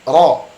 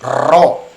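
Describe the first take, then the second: First: The r is trilled with few vibrations. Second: The r is trilled with many vibrations. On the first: The speaker calls it right. "huruf ro tidak terlalu banyak getaran" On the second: The speaker calls it wrong.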